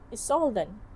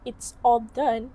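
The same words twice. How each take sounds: First: The phrase is reduced with sounds dropped. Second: The phrase is pronounced clearly and fully. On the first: "the participant pronounces it as it's all done" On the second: "Instead of pronouncing it clearly"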